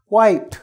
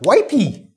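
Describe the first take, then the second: First: The word ends on the consonant sound p. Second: An extra vowel sound is added after p. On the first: The speaker calls it right. "Wipe, not wipey" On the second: The speaker calls it wrong. "not wipey. Sorry, people from Brazil"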